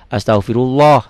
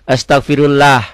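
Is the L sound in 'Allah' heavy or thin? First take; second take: heavy; thin. First: The L in Allah sounds heavy and full. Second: The L in Allah sounds light and thin. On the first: The speaker calls it right. "Tebel tafhim" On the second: The speaker calls it wrong. "kalau nggak pakai guru nih bacanya"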